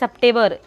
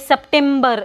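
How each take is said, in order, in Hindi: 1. इस शब्द में m की ध्वनि सुनाई नहीं देती। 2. इस शब्द में m की ध्वनि सुनाई देती है। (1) "You have to say September. M is silent in that word" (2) "you don't have to say September"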